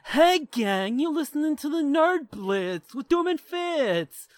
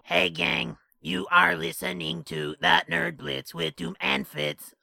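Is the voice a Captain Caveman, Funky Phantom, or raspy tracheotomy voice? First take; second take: Funky Phantom; raspy. First: It is a Funky Phantom cartoon voice. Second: It is a raspy, tracheotomy-like voice.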